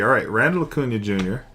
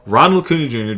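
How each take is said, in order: First: Randall said with a flat a, RAN-dl; first syllable of Randall as in ran; wrong name Randall. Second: Ronald said RON-ld, open o as in on; corrected name Ronald. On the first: Card-breaker misreads the player's name, saying Randall. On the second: Card-breaker corrects himself to Ronald, said RON-ld. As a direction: Ronald with the ah vowel, not ran. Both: Real, not acted. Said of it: "Ronald, not Randall".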